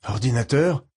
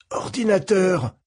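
First: Said in the usual way. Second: Slow strained wheeze, higher; wheezy voice. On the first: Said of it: "d'une voix sifflante". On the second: Acted. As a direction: push it out through burned lungs. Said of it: "commençai-je d'une voix sifflante".

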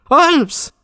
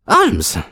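First: Very high, piercing call of the name; waking a sleeper. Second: High-pitched call of the name; crying out. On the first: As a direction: call much higher to rouse a sleeper. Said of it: "quelqu'un qui aurait voulu réveiller un dormeur". (appel suraigu pour réveiller un dormeur) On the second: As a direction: call out to rouse a sleeper. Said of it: "s'écria-t-il". (appel lancé pour réveiller) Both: A narrator's reading.

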